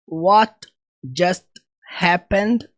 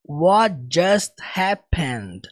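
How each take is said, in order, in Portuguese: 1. As palavras são ditas separadamente, com pausas. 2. As palavras são ditas juntas, sem nenhuma pausa. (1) "ele não fala assim pausadamente" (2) "Ele fala mais ou menos dessa forma aqui"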